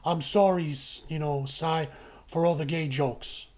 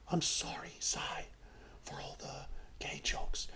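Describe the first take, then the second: First: It is said at normal volume. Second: It is said quietly, almost whispered.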